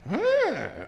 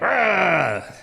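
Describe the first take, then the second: First: It is said in a gentle, friendly way. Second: It is growled harshly and aggressively.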